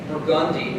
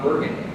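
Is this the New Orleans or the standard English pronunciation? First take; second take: New Orleans; standard. First: It is said the local New Orleans way. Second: It is said the standard English way. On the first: This is how locals name the street. "why do you say that street Burgundy" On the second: This is how the word is said in English. "that's how you say that word in English"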